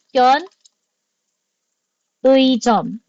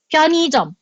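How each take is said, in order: First: The middle syllable has the gliding vowel ui. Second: The middle syllable has the plain vowel i. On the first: "That's fine. Walang mali po dyan" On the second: "It's much easier to pronounce"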